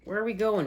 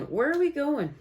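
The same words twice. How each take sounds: First: Said in the usual way. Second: Asked again much higher; sing-song second asking; higher repeat. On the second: Real, not acted. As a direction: lift the repeat way up, playful.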